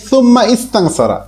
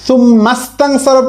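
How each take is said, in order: First: The second word starts separately with its own vowel. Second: The words run together, dropping the second word's vowel.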